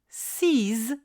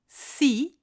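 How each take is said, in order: First: The final consonant is pronounced as z. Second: The final consonant is silent. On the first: "si le mot qui suit commence par une voyelle ou un H muet" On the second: "s'il est suivi d'un mot qui commence par une consonne"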